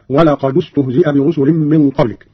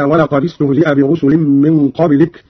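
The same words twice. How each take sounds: First: ولقد استهزئ linked as "walaqadu-stuhzi'a"; u sound closing ولقد before استهزئ; damma on the dal. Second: Said in the usual way. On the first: Shown as a demonstration. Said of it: "بضم أولى الساكنين وهو الدال".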